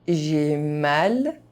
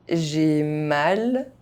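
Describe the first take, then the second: Both takes have the same delivery.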